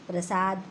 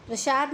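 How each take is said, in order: First: प्रसाद with a clean s; correct s. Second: प्रसाद with a hushing sh. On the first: Teacher correcting the error, प्रसाद with s. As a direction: say प्रसाद as "prasaad". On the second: Teacher citing the error, प्रसाद with sh. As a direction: say प्रसाद as "prashaad". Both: Shown as a demonstration. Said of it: "नहीं".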